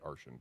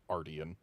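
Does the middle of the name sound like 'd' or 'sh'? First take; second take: sh; d. First: The middle consonant sounds like 'sh'. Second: The middle consonant sounds like 'd'. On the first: This is the speaker's habitual pronunciation. The speaker calls it wrong. "I keep on pronouncing it Arshan because that's what I'm used to, but it's wrong" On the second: This is how the in-game character says it. The speaker calls it right. "according to the Mastersmith who pronounces it Ardian"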